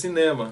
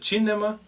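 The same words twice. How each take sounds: First: The stress falls on the second syllable. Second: The stress falls on the first syllable. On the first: "em português cinema" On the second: "em italiano você pronuncia cinema ... o si ele tem um, uma sílaba forte"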